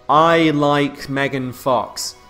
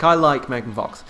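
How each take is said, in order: First: It is said slowly. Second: It is said fast, at normal pace.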